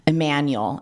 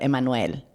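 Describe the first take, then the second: First: The name is said with an English pronunciation. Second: The name is said with a Spanish pronunciation. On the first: The name is adapted for English speakers. The speaker calls it wrong. "we try to, I guess, like, whiten people's names or even the pronunciations" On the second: The name is given its due respect. The speaker calls it right. "instead of"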